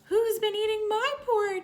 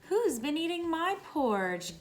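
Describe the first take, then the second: First: It is said in a high squeaky voice. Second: It is said in a gasping, breathy voice.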